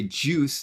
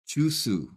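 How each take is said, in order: First: The word is said as one syllable. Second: The word is said as two syllables. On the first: Koreans will not understand it. The speaker calls it right. "if you say it in English as it's properly said" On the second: Koreans will understand it. The speaker calls it wrong. "which is a two syllable word"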